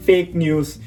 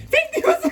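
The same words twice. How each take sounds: First: Said in the usual way. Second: Very high chipmunk-like repeat; comic high-pitched replay; squeaky replay. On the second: Real, not acted. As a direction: repeat it as a tiny squeaky echo.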